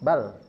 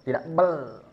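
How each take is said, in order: First: The final L is pressed only moderately. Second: The final L is pressed very hard. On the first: The speaker calls it right. "Itu sedang" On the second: The speaker calls it wrong. "Jangan begitu ditekan"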